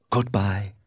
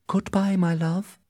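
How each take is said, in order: First: Romeo in the reader's own register; unforced male lover's goodbye; Romeo's farewell. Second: Put-on high-pitched young lover's farewell; high, tender-hearted heroine saying farewell; lovelorn Juliet. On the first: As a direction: voice the departing lover, little raised in pitch. Romeo replies to Juliet's farewell. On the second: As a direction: voice Juliet parting from her love, pitched well up. Juliet bids Romeo farewell from balcony. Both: A narrator's reading.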